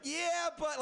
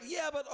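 First: Mock whiny "Yeah, but" pitched higher; mocking excuse. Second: Mock "Yeah, but" pitched higher, falling; same whiny dodge again; mocking excuse. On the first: Comic mimics drinker's excuse, mocking higher whine. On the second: Comic repeats the excuse, mocking higher whine.

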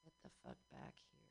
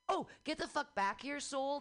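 First: Unvoiced, fast whisper of the line; breathy whispered get the fuck back here; whispered callback. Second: Higher call to the departing soul. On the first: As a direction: hush it like a secret aside. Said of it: "replaying bit". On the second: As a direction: yell after your soul leaving your body. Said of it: "suggesting the act". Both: Shown as a demonstration.

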